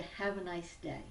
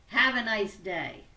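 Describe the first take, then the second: First: Said in the usual way. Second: Loud, brash New York accent. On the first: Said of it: "If I wanted you to have a nice day". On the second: Shown as a demonstration. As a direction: belt it out in your best New York accent, tone at odds with the words. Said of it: "best New York accent, it may come across like this".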